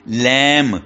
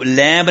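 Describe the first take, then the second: First: लैम said as lam, ending on m with no b; silent b, right way. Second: लैम्ब said with the b sounded at the end; teacher voicing the wrong लैम्ब. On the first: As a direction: end लैम cleanly on the m sound. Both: Shown as a demonstration. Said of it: "इसको लैम्ब नहीं पढ़ना".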